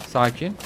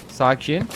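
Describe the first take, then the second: No difference in how they are said.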